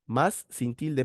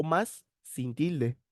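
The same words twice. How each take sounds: First: Said in the usual way. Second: Más sin tilde drawn out slowly, más held long; slow, careful más sin tilde, leaning on más; warning students to mind the missing accent, slow and stressed. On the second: Shown as a demonstration.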